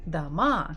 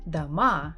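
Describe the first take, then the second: The two takes are said the same way.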